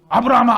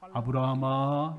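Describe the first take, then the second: First: The name is called urgently and quickly. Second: The name is called calmly and slowly.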